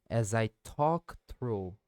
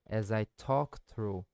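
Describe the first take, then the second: The two takes are said the same way.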